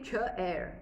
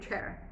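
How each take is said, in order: First: The word is split into two syllables. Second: The word is said as one syllable. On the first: The speaker calls it wrong. "I can't say chair" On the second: The speaker calls it right. "I say chair"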